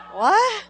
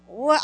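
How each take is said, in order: First: High, sharp disbelieving what; stunned what. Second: Said in the usual way. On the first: Retold or imitated. To the mother who said Michelle, a startled what. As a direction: hit it like the name just floored you. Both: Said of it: "I look at her like".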